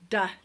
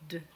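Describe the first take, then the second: First: A short vowel sound follows the consonant. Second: The consonant is said with no vowel after. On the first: The speaker calls it wrong. "not to add a sound after the letter" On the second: The speaker calls it right. "just the sound of the letter"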